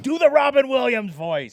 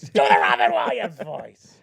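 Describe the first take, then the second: First: Said in the usual way. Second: Shouted demand. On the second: Shown as a demonstration. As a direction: shout the request again.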